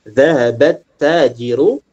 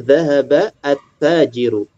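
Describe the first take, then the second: First: The article's 'a' is dropped, joining the words. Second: The 'a' of the article is pronounced separately. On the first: The words are read as connected speech. "karena dia di sini bersambung, a-nya tidak dibaca" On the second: This is the base form of the words. "Secara asal bacanya"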